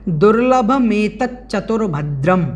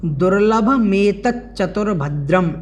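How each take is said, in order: First: Said in the usual way. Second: दुर्लभमेतच्चतुर्भद्रम said slowly, syllable by syllable; slow careful pronunciation. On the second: Shown as a demonstration. Teacher repeating दुर्लभमेतच्चतुर्भद्रम slowly for students to copy. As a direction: spell out दुर्लभमेतच्चतुर्भद्रम slowly with the च्च doubled. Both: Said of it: "इस प्रकार से इसका हमें उच्चारण करना है".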